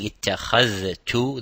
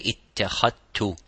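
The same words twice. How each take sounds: First: The dh and t are both clearly pronounced. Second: The dh is merged into a single t. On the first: "instead of saying" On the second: "they would say ... as idgham, which means they make it as one letter"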